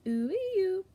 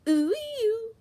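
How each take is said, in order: First: Cooing vocaloid voice; Miku voice. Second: High, loud screamed vocaloid cry; screamed Miku call. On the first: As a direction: coo it sweetly as Miku. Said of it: "She goes". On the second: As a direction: belt it out with all her might. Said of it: "screams with all her might". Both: Acted.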